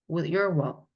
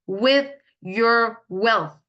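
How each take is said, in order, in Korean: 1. 조금 더 빠르게 말합니다. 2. 천천히, 힘주어 또박또박 발음합니다. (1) "이렇게 조금 좀 빠르게는 하실 수 있겠죠" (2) "이렇게 과격하게 발음을 연습하시다가"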